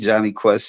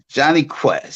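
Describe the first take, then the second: First: The names are rattled off quickly. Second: The names are said slowly and clearly. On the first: The speaker calls it wrong. "Slow down. You sound like you rapping" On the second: The speaker calls it right. "let me slow it down so they can hear it"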